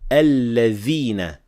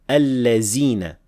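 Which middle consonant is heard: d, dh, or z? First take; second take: dh; z. First: The middle consonant is a th sound. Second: The middle consonant is a z sound. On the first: The speaker calls it right. "We should only say alladhina with dhal" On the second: The speaker calls it wrong. "very commonly mispronounced as allazina with zay"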